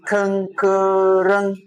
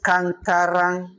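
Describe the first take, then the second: First: "Kankarang" very slowly, every vowel a schwa; correct schwa vowels. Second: "Kankarang" slowly, every vowel an open ah; mistaken open vowels. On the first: Teacher modelling the right form, drawn-out schwa Kankarang. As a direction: stretch "Kankarang" out as kuhn-kuh-ruhng. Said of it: "It's Kankarang". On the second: Teacher warning against the wrong vowels, slow open-ah Kankarang. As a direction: say "Kankarang" as kahn-kah-rahng. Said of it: "It's not Kankarang". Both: Shown as a demonstration.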